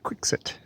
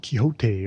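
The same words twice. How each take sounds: First: It is said in the British way. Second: It is said in a non-British way.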